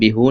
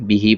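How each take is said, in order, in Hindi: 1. यह शब्द 'oo' स्वर से खत्म होता है। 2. यह शब्द 'ee' स्वर से खत्म होता है। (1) "इसको हम बिहू नहीं पढ़ेंगे" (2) "बल्कि बिही पढ़ेंगे"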